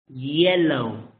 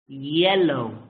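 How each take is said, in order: Both takes have the same delivery.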